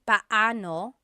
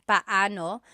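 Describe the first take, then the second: Both takes have the same delivery.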